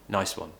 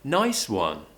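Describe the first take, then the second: First: The pitch stays flat without rising. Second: The pitch rises and then falls. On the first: The speaker does not care at all. The speaker calls it wrong. "that would sound like I don't care" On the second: The speaker shows real feeling and enthusiasm. The speaker calls it right. "I'm rising and I'm falling, more of an emotional tone"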